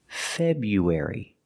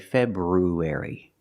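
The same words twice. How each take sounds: First: The R after the B is dropped. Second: The R after the B is pronounced. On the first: The speaker calls it right. "We don't pronounce the R. It's pronounced February" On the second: The speaker calls it wrong. "We don't say February"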